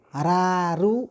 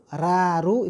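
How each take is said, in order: First: The r is light, with a bright vowel. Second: The r is light, with a bright vowel.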